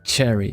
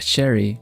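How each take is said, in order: First: The word begins with a hard ch sound. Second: The word begins with a soft sh sound. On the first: A native English speaker is saying it. The speaker calls it right. "instead of cherry with that, you know, really ch" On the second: A Swedish speaker is saying it. The speaker calls it wrong. "it's quite common for Swedes to say uh, sherry"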